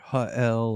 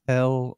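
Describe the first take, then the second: First: The name is said as two syllables. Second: The name is said as one syllable. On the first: "because they do the apostrophe" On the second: "like is it just Hell?"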